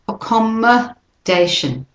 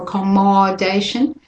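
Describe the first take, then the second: First: The vowel in 'mod' is a weak schwa. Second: The vowel in 'mod' is a full clear vowel. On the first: The speaker calls it right. "that O is also a schwa" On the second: The speaker calls it wrong. "So we don't say accommodation"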